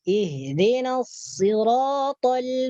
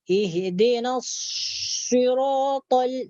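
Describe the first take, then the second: First: The words are said with relaxed, normal articulation. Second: The words are said with exaggerated mouth movement. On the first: The speaker calls it right. "Jadi biasa aja" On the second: The speaker calls it wrong. "mulut kita tak perlu"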